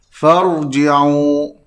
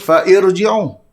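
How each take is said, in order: First: The words join with no extra vowel. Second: An extra 'i' vowel is heard after 'fa'. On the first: The speaker calls it right. "tidak disebut untuk bacaan sambung" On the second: The speaker calls it wrong. "Kita tak boleh sebut fa'irji'u"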